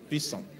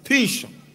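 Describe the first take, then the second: First: The name is said with an 's' sound. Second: The name is said with an 'sh' sound. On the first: This is the English form of the name. "let's use your own" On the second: This is the Hebrew form of the name. "The Hebrew pronunciation"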